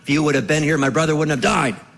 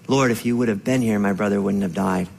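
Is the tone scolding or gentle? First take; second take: scolding; gentle. First: It sounds scolding, like giving someone a telling-off. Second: It sounds gentle and sorrowful, not scolding.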